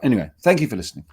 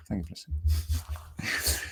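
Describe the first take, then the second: First: Said in the usual way. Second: Slow, soft whisper; whispered sign-off after a quick first thank-you. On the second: Real, not acted. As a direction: breathe the thanks out gently. Sign-off repeated softly.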